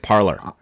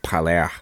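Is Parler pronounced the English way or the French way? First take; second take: English; French. First: The name is pronounced the English way. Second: The name is pronounced the French way. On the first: "but then I heard it Parler" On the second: "we are Francophiles, so I think of Parler"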